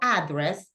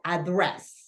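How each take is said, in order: First: The stress is on the first syllable. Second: The stress is on the second syllable. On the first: The speaker calls it wrong. "no address" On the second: The speaker calls it right. "The stress goes in the second syllable"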